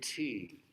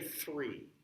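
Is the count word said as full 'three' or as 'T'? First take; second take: T; full three. First: The word is reduced to a short 'T'. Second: The word has a full 'thr' onset. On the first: The shorter sound keeps the count from slowing down. The speaker calls it right. "it's said T" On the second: The extra sound slows people down. The speaker calls it wrong. "that extra diction sound, took time"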